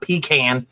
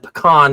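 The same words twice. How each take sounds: First: It is said in a typical Southern way. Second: It is said in a fancier, non-Southern way. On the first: "not pecan" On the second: "I said pecan ... It sounds more fancy, debutante like"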